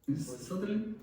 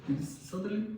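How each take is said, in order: Both takes have the same delivery.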